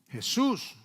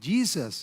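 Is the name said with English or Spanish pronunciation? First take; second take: Spanish; English. First: The name is said with Spanish pronunciation. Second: The name is said with English pronunciation. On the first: "en español" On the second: "en inglés"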